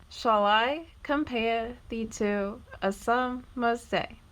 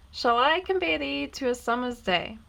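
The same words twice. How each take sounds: First: "Shall I / compare / thee to / a summer's day", slow, foot by foot; split into metrical feet. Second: Said in the usual way. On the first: Shown as a demonstration. Teacher showing the five feet of the verse, "Shall I compare thee to a summer's day" slowly broken into iambs. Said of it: "Notice how there are five metrical feet in this verse". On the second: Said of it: "take a quick look at an example from Shakespeare".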